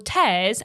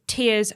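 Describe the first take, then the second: First: The word rhymes with airs. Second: The word rhymes with ears. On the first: It refers to ripping. "as in ripping" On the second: It refers to crying. "as in crying"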